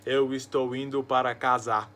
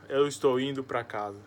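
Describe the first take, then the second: First: Each word is separate, with even force throughout. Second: The words run together into one long word. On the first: The speaker calls it right. "colocar as palavras separadas e com a mesma tonalidade" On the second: The speaker calls it wrong. "Não fala"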